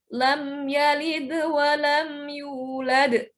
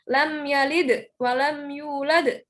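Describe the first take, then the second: First: The d of yalid bounces only slightly. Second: The d of yalid bounces out strongly. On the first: The speaker calls it right. "masih mantul tapi ada yang ditahan" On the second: The speaker calls it wrong. "cara bacanya bukan"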